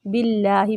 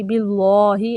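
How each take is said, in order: First: बिल्लाहि with a light, thin l and open front aa; thin lam. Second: बिल्लाहि with a thick, dark l and rounded aw-like vowel; heavy lam. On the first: Teacher models it for students, thin lam. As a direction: keep the double l in बिल्लाहि light. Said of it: "अल्लाह का लाम मोटा नहीं पढ़ेंगे". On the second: Teacher shows what not to read, heavy lam. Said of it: "बिल्लाहि ऐसे नहीं पढ़ना". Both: Shown as a demonstration.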